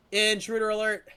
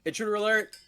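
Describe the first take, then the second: First: High, louder alarm, stress on "Intruder"; alarm shout. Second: High, loud ship alarm call; alarm shout. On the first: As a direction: punch "Intruder", loud and high. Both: Pretend. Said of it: "that's my raid intro".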